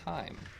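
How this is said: It is said with an American English pronunciation. The speaker calls it right. "it's Heim. Because we are American"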